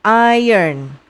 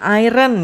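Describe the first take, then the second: First: "Iron" said "AI-yern"; correct pronunciation. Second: "iron" misread as "AI-ren", R sounded before the vowel; wrong pronunciation. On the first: Teacher showing pupils the proper reading, "Iron" as "AI-yern". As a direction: model "Iron" as "eye-ern", R after the vowel. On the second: Teacher showing pupils how not to read it, mispronounced "iron" as "AI-ren". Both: Shown as a demonstration. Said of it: "Ini bacanya bukan iron".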